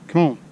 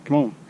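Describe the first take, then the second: No difference in how they are said.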